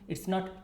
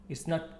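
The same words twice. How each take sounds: The two takes are said the same way.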